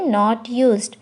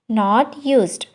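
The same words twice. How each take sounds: The two takes are said the same way.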